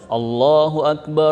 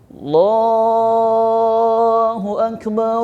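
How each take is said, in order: First: The vowel in Allah is held for two beats. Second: The vowel in Allah is drawn out very long. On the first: It follows the Quran recitation rules. "lapas Allah berapa rakaat? Dua kan?" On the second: It does not follow the Quran recitation rules. "panjang kan gitu"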